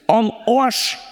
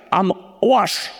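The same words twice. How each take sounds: First: "am Arsch" in broad Bavarian, a rising "oasch"; Bavarian accent. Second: Said in the usual way. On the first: Shown as a demonstration. ("am Arsch" auf Bayerisch) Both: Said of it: "sag's mal auf Bayerisch".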